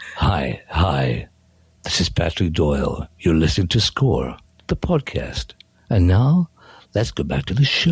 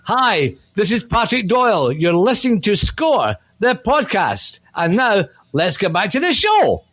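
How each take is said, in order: First: It is said in an FM radio DJ voice. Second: It is said in his normal voice.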